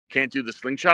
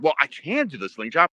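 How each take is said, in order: First: SLINGSHOT lifted at the end as a question. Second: CAN stressed in a counter, rising at the end. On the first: Veteran wrestler queries the kid's refusal, questioning. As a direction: ask it back, rising on "slingshot". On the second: Young wrestler answers the veteran's doubt, stressing CAN. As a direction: lean on "can" to concede the point. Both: Retold or imitated.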